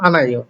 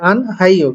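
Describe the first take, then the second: First: No h sound is heard in the middle. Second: An h sound is heard in the middle. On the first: The speaker calls it right. "কিন্তু হলো" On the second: The speaker calls it wrong. "এখানে হওয়ার কথা ছিল কি"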